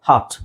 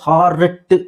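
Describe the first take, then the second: First: The r sound after the vowel is silent. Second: The r sound after the vowel is pronounced. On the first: "British ಇಂಗ್ಲೀಷಲ್ಲಿ ಆರ್ನ silent ಮಾಡ್ತಾರೆ" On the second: "ಹಾರ್ಟ್ ಅಂತ ಹೇಳೋದ್ರ ಬದಲು"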